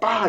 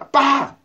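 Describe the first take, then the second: First: The opening vowel is almost dropped, leaving ppa. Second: The word begins with a clear vowel before ppa. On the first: "이응음가를 거의 안 하고 빠 이렇게 해버려요" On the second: "아빠는 아닌데"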